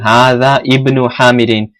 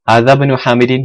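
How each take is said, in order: First: The alif is sounded separately between the words. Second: The words run together, skipping the alif. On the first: "instead of saying" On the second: "you say straight through"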